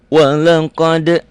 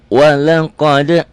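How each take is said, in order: The two takes are said the same way.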